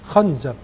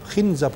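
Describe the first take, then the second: First: The first vowel is an open a sound. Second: The first vowel is a front i sound.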